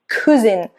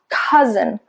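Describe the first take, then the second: First: The first syllable sounds Italian-influenced, not like ca. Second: The first syllable starts with an English ca sound. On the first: The speaker calls it wrong. "I've heard Italians pronounce this word cousin" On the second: The speaker calls it right. "instead of ca, cousin"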